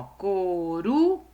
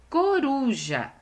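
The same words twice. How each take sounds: First: "coruja" broken up, "ru" stretched long and rising, then "ja" apart; very slow syllable-splitting of "coruja" to show strong "ru"; drawn-out stressed syllable. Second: "Coruja" slow, pitched high, weight on the "ru"; teacher presenting "Coruja" with clear middle stress. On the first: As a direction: hold the "ru" of "coruja", pause before "ja". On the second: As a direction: say "Coruja" as one word, leaning on "ru". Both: Shown as a demonstration. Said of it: "o uru é a sílaba mais forte".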